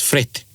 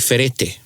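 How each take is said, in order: First: The word is said quickly as one syllable. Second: The word is said slowly with three full syllables. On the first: The speaker calls it right. "You say it very quickly, and it comes out as fret" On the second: The speaker calls it wrong. "if you were to read it like that, you would say ferete"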